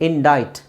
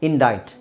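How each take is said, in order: Both takes have the same delivery.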